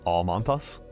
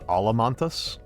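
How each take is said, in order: First: No extra vowel is inserted after 'Al'. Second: An extra vowel is inserted after 'Al'. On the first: The speaker calls it right. "it is Almantas" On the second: The speaker calls it wrong. "That is that is incorrect"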